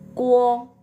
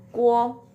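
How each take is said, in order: No difference in how they are said.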